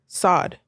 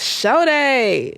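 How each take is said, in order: First: The name is one syllable, like 'sod'. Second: The name is two syllables, like 'show day'. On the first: The speaker calls it wrong. "they would pronounce my last name Sod" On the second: The speaker calls it right. "It's show day"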